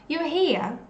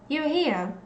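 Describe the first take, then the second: No difference in how they are said.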